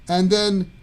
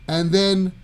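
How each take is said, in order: Both takes have the same delivery.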